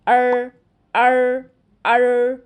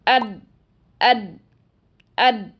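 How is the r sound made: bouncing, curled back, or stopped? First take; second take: curled back; stopped. First: The r is made with the tongue curled back. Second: The r is fully blocked, sounding like a d. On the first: "ज़बान की नोक को ... बहुत पीछे ले जाते हैं और इसे ऊपर तालू पर लगा देते हैं" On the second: "बीच में होल ही नहीं छोड़ते, तो फिर ऐसी आवाज़ आती है"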